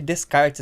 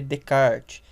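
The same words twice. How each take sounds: First: Every letter of the name is sounded out. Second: The name is said French-style with silent letters. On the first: This is how the name is written. "se escreve Descartes, né, em português" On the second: This is how the name is read. "mas se lê Descartes"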